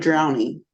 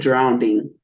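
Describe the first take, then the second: First: No extra d sound comes before the ending. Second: An extra d sound comes before the ending.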